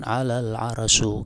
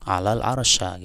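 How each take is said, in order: First: The last word ends with an u vowel. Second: The last word ends with an a vowel. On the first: "di dhammah bi rafil arsy" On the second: "dibaca fathah atau nasab pada al ars"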